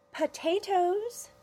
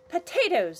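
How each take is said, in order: First: "Potatoes!" slow, high, rising; drawn-out high. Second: Loud, clipped "Potatoes!"; loud exclamation. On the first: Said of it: "she said". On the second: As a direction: snap out "Potatoes!". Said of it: "said Annabelle". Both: Acted.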